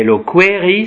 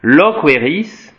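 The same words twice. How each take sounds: First: Higher "loqueris" with stress on the I; "loqueris" stressed on the I, rising. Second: Loqueris said slowly, E of "loqueris" stressed and long; "loqueris" stressed on the E, slow teacher demo. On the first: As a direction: put the weight on the I of "loqueris". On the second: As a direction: lean on the middle E of "loqueris", drawn out. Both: Shown as a demonstration. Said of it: "le déplacement de l'accent tonique peut changer le sens".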